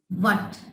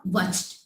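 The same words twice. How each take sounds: First: Said in the usual way. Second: "watched" said in place of "what", with the H sounded; wrong pronunciation. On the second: Shown as a demonstration. Teacher warns students off the wrong sound, "watched" for "what". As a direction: say "watched" as the mistaken form of "what". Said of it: "It's not watched".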